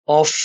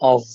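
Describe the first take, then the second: First: The word ends with an f sound. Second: The word ends with a v sound. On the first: The speaker calls it wrong. "ऑफ नहीं बोलते" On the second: The speaker calls it right. "उसकी वी की side sound आती है"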